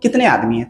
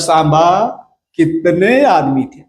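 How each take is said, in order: First: It is said in a plain, normal voice. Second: It is said in a dramatic Gabbar impression.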